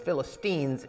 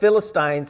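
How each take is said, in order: First: It is said with an American pronunciation. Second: It is said with a British pronunciation. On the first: "is the American pronunciation" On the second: "is the British pronunciation"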